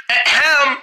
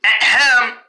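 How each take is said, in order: First: Pointed throat clear for attention; throat-clearing ahem. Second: Pointed throat clear for attention; a deliberate ahem to be noticed. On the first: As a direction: clear your throat to be noticed. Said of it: "What do you mean, ahem?". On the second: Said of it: "What's with the ahem?". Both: Acted.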